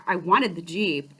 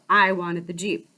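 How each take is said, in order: First: Wanted leaned on, falling at the end; stress on wanted. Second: I punched, the rest lower; stress on I. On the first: Telling the salesman story, stress on wanted. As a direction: hit the word wanted. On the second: Insisting to listeners she already wanted it, stress on I. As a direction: put the weight on I. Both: Real, not acted.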